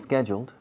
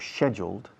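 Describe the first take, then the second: First: It is said with an American pronunciation. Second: It is said with a British pronunciation.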